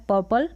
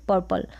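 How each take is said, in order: First: First "पर्पल" as "puh-pal", no r; silent r. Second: "पर्पल" with a lightly audible r; slight r. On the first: Teacher repeating both options, "पर्पल" without r. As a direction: skip the r in "पर्पल". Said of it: "दोनों तरीके से pronounce किया जाता है". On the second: Teacher repeating both options, "पर्पल" with r. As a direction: sound a little r in "पर्पल". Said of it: "थोड़ा सा र का sound आएगा". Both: Shown as a demonstration.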